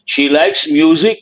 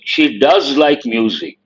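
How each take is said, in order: First: Said in the usual way. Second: Does pressed hard, falling after it; stress on does. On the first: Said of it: "But you want to emphasize". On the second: Shown as a demonstration. Teacher showing students emphatic does. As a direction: lean on does to make it emphatic.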